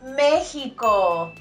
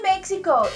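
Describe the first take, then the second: First: It is said with Spanish pronunciation. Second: It is said with English pronunciation. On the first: The speaker calls it right. "it's Mexico" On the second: The speaker calls it wrong. "Don't say Mexico ... that's how it will sound in English"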